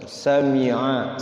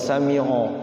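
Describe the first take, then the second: First: The word ends with an 'a' vowel. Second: The word ends with an 'o' vowel. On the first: The speaker calls it right. "pakai a" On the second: The speaker calls it wrong. "jangan sami'o"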